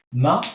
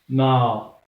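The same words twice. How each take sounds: First: Ma said short and clipped; short vowel. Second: Ma with the a drawn out, louder; long vowel. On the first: Teacher shows ma without alif. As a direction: keep the a of ma brief. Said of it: "sans alif". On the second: Teacher shows ma with alif. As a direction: hold the a of ma twice as long. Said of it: "Avec alif". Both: Shown as a demonstration.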